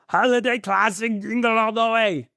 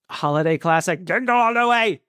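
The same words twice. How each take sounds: First: It is said in a put-on movie-star impersonation voice. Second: It is said in the speaker's own normal voice.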